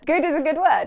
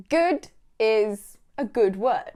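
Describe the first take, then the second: First: Higher and louder, sing-song praise; plain. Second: Said in the usual way. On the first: Shown as a demonstration. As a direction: say it like praising a child brightly.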